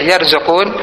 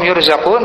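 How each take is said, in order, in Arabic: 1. الحركة الأولى هي a، مثل yarzuqun. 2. الحركة الأولى هي u، مثل yurzaqun.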